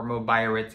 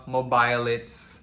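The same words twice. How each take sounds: First: "Mobiritz" said with an R sound; "Mobiritz", R in the third syllable; alternative pronunciation. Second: "Mobilits" said with an L sound; "Mobilits", anglicized with an L; English-style pronunciation. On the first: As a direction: say "Mobiritz" with R replacing the L. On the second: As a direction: say "Mobilits" with L in the third syllable. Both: Shown as a demonstration. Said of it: "however you wanna pronounce that".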